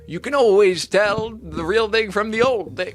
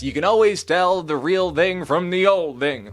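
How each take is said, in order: First: It is said in an attempted Irish accent. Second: It is said in the speaker's plain accent.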